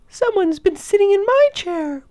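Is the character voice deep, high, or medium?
high. A tiny, high voice says it. The smallest bear is speaking. "Baby Bear cried in his tiny little voice"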